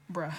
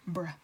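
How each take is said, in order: First: "Bruh." choked off into a laugh; a Bruh that catches and breaks into laughter. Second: Said in the usual way. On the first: Real, not acted. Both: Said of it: "That was me choking the air".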